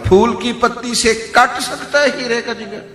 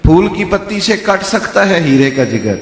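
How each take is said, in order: First: It sounds like a scornful, doubting rhetorical question. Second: It sounds like a sincere, affirming statement.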